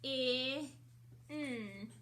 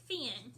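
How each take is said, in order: First: "F-I-N" as separate sounds fff, short i, nnn, not letter names; sounded out. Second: Said in the usual way. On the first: Shown as a demonstration. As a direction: stretch each sound of "F-I-N" with gaps between. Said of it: "I'm gonna write it".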